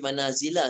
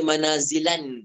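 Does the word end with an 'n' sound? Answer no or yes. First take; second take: no; yes. First: The word ends on a plain 'a' vowel. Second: The word ends with an added 'n' sound. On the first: The speaker calls it right. "baca manazila saja" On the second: The speaker calls it wrong. "tak baca manazilan dengan tanwin"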